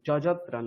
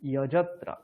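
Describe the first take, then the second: First: The word begins with a j sound. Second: The word begins with a y sound. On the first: The speaker calls it wrong. "যজত্রা নয়" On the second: The speaker calls it right. "ই অ বলবেন"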